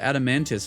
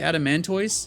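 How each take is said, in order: First: The last syllable sounds like 'tiss'. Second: The last syllable sounds like 'toys'. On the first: "they pronounce it adamantis" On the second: "I still want to say adamantoise"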